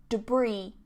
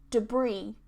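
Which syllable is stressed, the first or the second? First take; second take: second; second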